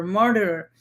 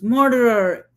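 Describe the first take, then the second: First: Said in the usual way. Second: A mock yell of murderer, higher and louder; hollered "Murderer!" with a falling end; retold holler. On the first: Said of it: "joined him in chorus". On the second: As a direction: throw "Murderer!" out like an accusation from the crowd. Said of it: "hollered at the top of his lungs".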